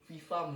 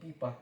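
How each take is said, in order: First: The word is said with f sounds. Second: The word is said with p sounds. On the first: The speaker calls it right. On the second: The speaker calls it wrong.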